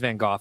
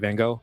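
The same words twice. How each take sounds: First: The name is said the less common way. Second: The name is said the common everyday way. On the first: This is the proper pronunciation of the name. The speaker calls it right. "That is the correct way to do it" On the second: This is how most people say it. The speaker calls it wrong. "since most people say Van Gogh, I also say Van Gogh"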